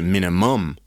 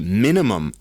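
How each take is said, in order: First: The word starts quiet and gets louder. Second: The word starts loud and gets quieter. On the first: The speaker calls it wrong. "as opposed to ... such a crescendo could possibly be appropriate to other words" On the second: The speaker calls it right. "The diminuendo seems appropriate to the cadence of spoken pronunciation. We say"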